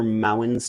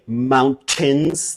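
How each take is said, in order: First: The middle t sound is dropped. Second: The middle t sound is clearly pronounced. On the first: "they're mountains to me" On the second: "how you would say mountains"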